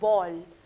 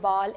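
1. स्वर एक गोलाई वाला 'aw' ध्वनि है। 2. स्वर एक खुला, बिना गोलाई वाला 'ah' है। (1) "it's बॉल" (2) "don't say बॉल"

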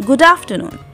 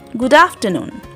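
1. 'good' में स्वर हल्का है। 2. 'good' में स्वर हल्का है।

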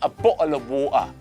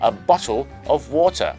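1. เสียง t หายไปครับ 2. เสียง t ออกเสียงชัดเจนครับ (1) "สไตล์ค็อกนี่ ... โอ้ตัวทีหายไป" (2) "คนอังกฤษจะใส่ตัว t แล้วก็สระโอ"

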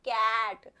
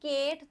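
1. यह स्वर 'apple' के 'a' जैसा सुनाई देता है। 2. यह स्वर 'day' के 'ay' जैसा सुनाई देता है। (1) "हम बोलते हैं कैट" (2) "इसकी साउंड में हम केट तो नहीं बोलते"

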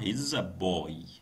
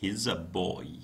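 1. يُختصر الفعل ويُلفظ متصلًا بالضمير. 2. يُختصر الفعل ويُلفظ متصلًا بالضمير.

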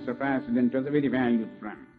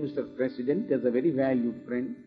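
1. ఇది American English accent లో మాట్లాడబడింది. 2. ఇది ఇండియన్ ఇంగ్లీష్ యాక్సెంట్ లో మాట్లాడబడింది. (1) "అమెరికన్ యాక్సెంట్ ఇలా మాట్లాడారు" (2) "ఇండియన్ యాక్సెంట్ లో చెప్తాను"

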